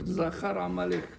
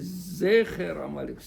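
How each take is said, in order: First: The first word is said with 'a' vowels. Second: The first word is said with 'e' vowels. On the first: The speaker calls it wrong. "faire attention de ne pas lire Zachar Amalek" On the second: The speaker calls it right. "C'est Zecher Amalek"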